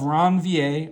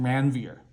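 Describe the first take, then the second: First: The name is said in a non-American way. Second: The name is said in an American way.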